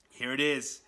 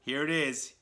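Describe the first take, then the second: No difference in how they are said.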